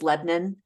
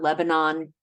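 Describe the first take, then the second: First: It uses the local Pennsylvania pronunciation. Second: It uses the outsider pronunciation of the name.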